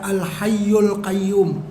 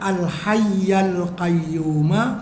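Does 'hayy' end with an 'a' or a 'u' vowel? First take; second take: u; a. First: The first word ends in a 'u' vowel. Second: The first word ends in an 'a' vowel. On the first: The ending does not match the preceding words grammatically. The speaker calls it wrong. "bukan dibaca al-hayyul qayyum" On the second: The ending matches the preceding words grammatically. The speaker calls it right. "dibaca al-hayyal qayyuma"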